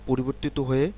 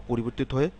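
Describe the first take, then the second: Both takes have the same delivery.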